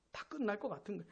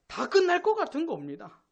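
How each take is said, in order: First: "다 끝날 것 같은 거" dropped very soft; hushed echo. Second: "다 끝날 것 같은" pitched high and urgent; emphatic alarm. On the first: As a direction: let the repeat fall away quietly. Hushed echo of previous line. (작게 읊조리듯 되뇌기) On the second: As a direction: stress "다 끝날" with a raised voice. Preacher stresses impending doom. ("다 끝날"을 높은 음으로 강조) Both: Real, not acted.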